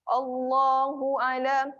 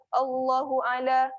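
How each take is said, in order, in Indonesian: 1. Vokal dalam Allah dibaca panjang. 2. Vokal dalam Allah dibaca pendek.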